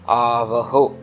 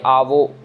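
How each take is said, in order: First: A clear h sound comes before the final o. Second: No h sound comes before the final o. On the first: The speaker calls it right. "Last में जो हा है उसकी आवाज आनी चाहिए" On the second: The speaker calls it wrong. "Mostly क्या होता है कि आवो हो जाता है"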